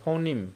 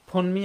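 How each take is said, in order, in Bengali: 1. এটি 'foh-neem' হিসেবে উচ্চারিত হয়, neem দিয়ে শেষ। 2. এটি 'phone-mee' হিসেবে উচ্চারিত হয়, mee দিয়ে শেষ। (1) "ফৌনিম বলতে হবে" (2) "ফোনমি আর বলা যাবে না"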